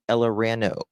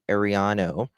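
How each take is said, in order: First: The surname begins with an 'el' sound. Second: The surname begins with an 'ar' sound. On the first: The speaker calls it wrong. "No, I said that wrong" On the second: The speaker calls it right. "I always say Ariano"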